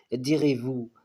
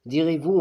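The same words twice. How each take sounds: First: Said in the usual way. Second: Direz-vous thrown out higher and louder, rising; rising indignant challenge. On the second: Acted. Poet challenging the philosophers: louder, higher indignant Direz-vous. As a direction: fling Direz-vous at the reader, raised. Same question repeated, raised.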